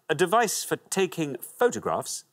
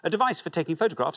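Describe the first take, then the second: First: It is read at a normal pace. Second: It is read at double speed.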